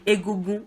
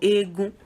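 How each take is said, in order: First: All three syllables are pronounced in full. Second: The word is contracted to two syllables. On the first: "saying it in full" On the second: "shrunk, contracted"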